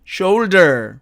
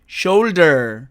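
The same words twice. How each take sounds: Both takes have the same delivery.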